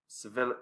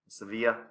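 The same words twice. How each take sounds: First: The name is said in a casual anglicized way. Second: The name is said in a careful Spanish-style way.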